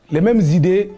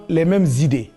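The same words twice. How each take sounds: The two takes are said the same way.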